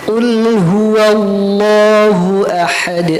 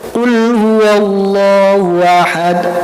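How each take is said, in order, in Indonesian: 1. Setiap suku kata, termasuk hu dan ha, terdengar jelas. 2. Suku kata hu dan ha kabur dan tidak jelas. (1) "harus jelas semuanya" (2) "tidak boleh qul huwallahu ahad, hu-nya enggak jelas, ha-nya enggak jelas"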